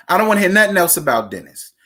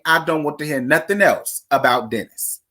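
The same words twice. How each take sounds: First: Faster, firmer repeat with stress on nothing; fed-up repeat. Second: Said in the usual way. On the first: Shown as a demonstration. Telling viewers she's done with Dennis, quick and firm. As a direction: say it again quicker, leaning on nothing. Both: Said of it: "said twice".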